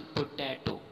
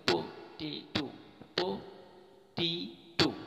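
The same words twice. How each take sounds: First: "पोटैटो" with an open "ai" in the middle; wrong pronunciation. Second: "पोटैटो" slowly split as po-tee-to; correct pronunciation. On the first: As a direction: say "पोटैटो" as po-TAI-to. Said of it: "word पोटैटो नहीं". ("पोटैटो", बीच में "टै") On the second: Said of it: "ये word है पोटैटो". ("पोटैटो" धीरे-धीरे, पो-टी-टो) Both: Shown as a demonstration.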